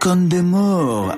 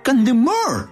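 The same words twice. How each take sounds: First: The word is pronounced in a French-like way. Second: The word is pronounced in a plain Spanish way. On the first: "así rollito francés" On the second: "que si lo piensas tiene más sentido"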